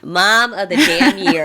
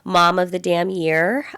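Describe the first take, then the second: First: It is said emphatically, with conviction. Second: It is said casually, as plain information.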